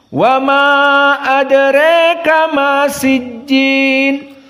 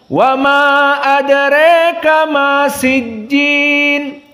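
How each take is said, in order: Both takes have the same delivery.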